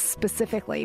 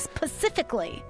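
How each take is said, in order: First: The word is said with its standard pronunciation. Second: The word is said with a childlike mispronunciation. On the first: This is how the word should be said. The speaker calls it right. "well, honey, it's specifically" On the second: This imitates how a child says it. The speaker calls it wrong. "my daughter, she always says"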